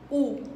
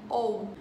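First: The letters are read with a 'u' sound. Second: The letters are read with an 'o' sound. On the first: This is how the letters are read in French. "Mas em francês a gente pronuncia isso aqui u" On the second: This is how the letters are read in Portuguese. "em português, a gente falaria como o, né? Ou"

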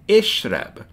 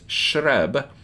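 First: It begins with a short helping vowel. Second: It begins with two consonants and no vowel. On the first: The speaker calls it right. "we add a helping vowel on the beginning" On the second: The speaker calls it wrong. "which is fine to an English speaker but doesn't work in Arabic"

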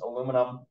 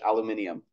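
First: The word is said with four syllables. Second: The word is said with five syllables.

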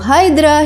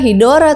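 First: It is said as two syllables, Hy-dra. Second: It is said as three syllables, Hi-do-ra. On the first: This is the name of the original Greek monster. "nama monster Hydra" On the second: This is the Japanese form of the name. "dari kata Hidora dalam bahasa Jepang"

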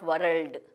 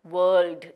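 First: The R is clearly rolled. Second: The R is nearly silent, not rolled. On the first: The speaker calls it wrong. "The R is not rolled" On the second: The speaker calls it right. "It is pronounced as world"

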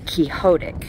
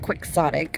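First: The word is pronounced with Spanish sounds. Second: The word is pronounced with English sounds.

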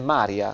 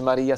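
First: The stress is on the first syllable. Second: The stress is on the second syllable. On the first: The speaker calls it right. "si dice Maria" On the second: The speaker calls it wrong. "Maria non si dice Maria"

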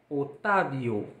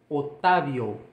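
The two takes are said the same way.

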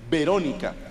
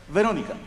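First: The first sound is made with both lips together. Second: The first sound has teeth touching the lip, like F. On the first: The speaker calls it wrong. "no se dice Verónica" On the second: The speaker calls it right. "Metí una F"

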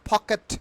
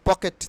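First: The first p sound is strongly aspirated. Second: The first p sound is unaspirated. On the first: The speaker calls it right. "পয়ের sound কিন্তু ফয়ের মতো হবে" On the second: The speaker calls it wrong. "পকেট বলতাম না"

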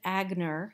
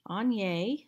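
First: The name ends with an 'er' sound. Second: The name ends with an 'oo' sound. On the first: The speaker calls it wrong. "Some people pronounce it Agner, and that is unfortunately incorrect" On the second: The speaker calls it right. "that is how you pronounce it"

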